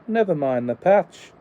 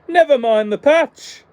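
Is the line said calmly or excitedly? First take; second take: calmly; excitedly. First: It is said calmly, without exclamation. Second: It is said excitedly, as an exclamation.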